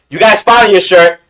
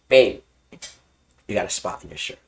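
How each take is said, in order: First: It is said loudly and openly. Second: It is said quietly and low.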